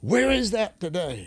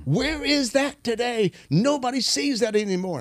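First: High, slow, wistful question; quoted awed lament. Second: Quoted awed lament. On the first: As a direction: voice the old man's longing, higher and slower. Retold old man marveling at healings. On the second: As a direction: stretch it out high, longing for the old days. Same quote repeated, much higher. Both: Retold or imitated.

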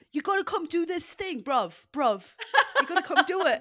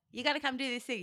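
First: High, loud put-on accent; Joel Petit. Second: Said in the usual way. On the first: Co-host mimicking a friend urging CrossFit, hammed-up accent. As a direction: exaggerate his accent, pushy and pitched up. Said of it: "He's gonna kill me for that accent". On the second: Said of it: "He wasn't like".

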